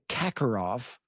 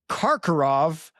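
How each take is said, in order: First: The first syllable has no R sound. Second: The first syllable has an R sound. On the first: The speaker calls it wrong. "I've been saying Kakarov without the R" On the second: The speaker calls it right. "It's Karkarov"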